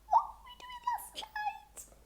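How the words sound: It is said in a high squeaky voice.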